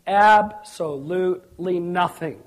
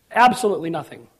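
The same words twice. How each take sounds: First: Drawn-out, deliberate answer; slow and emphatic. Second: Said in the usual way. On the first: Real, not acted. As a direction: stretch "Absolutely" syllable by syllable. Answers own question, stretched first.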